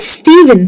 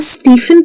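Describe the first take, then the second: First: The middle consonant is a v sound. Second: The middle consonant is an f sound. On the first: The speaker calls it right. "ये भी वी का sound ले लेता है।" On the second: The speaker calls it wrong. "क्या आप इसको स्टीफन कहते हैं? अगर हाँ, तो ये प्रोनाउंसिएशन गलत है।"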